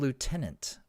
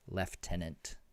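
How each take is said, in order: First: It is said the American way, 'loo-tenant'. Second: It is said the British way, 'lef-tenant'.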